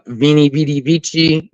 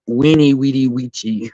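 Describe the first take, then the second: First: Each word begins with a V sound. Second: Each word begins with a W sound. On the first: The speaker calls it wrong. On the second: The speaker calls it right.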